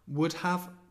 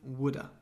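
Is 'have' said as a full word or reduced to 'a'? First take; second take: full; reduced. First: The word 'have' is said in full. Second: The word 'have' is reduced to a short 'a'.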